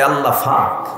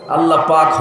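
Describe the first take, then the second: First: It is said in a Noakhali accent, with an f sound. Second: It is said in standard Bengali, with a p sound.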